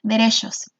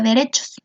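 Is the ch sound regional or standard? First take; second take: regional; standard. First: The ch is said in a regional way. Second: The ch is said in the standard way. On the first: "muchas personas en Chihuahua la pronuncian como derechos" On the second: "que así se escribe"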